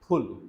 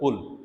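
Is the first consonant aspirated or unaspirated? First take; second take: aspirated; unaspirated. First: The first p is said with a puff of air. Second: The first p is said without a puff of air. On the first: The speaker calls it right. "It's aspirated पी" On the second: The speaker calls it wrong. "This word is not पुल"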